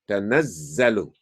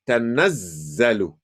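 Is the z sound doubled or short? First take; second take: doubled; doubled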